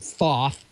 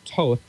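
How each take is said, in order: First: The name begins with a th sound. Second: The name begins with a plain t sound. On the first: The speaker calls it wrong. "You don't pronounce it Thoth" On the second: The speaker calls it right. "It's Toth"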